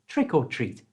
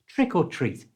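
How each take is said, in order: The two takes are said the same way.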